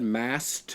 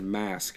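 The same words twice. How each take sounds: First: "masked" ending in a crisp T; final T sound. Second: "mask" ending in a K; final K sound. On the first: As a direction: say "masked" as "mast", with the T released. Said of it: "I thought you said masked". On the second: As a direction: say "mask" with S then K at the end. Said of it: "I thought you said mask". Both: Shown as a demonstration.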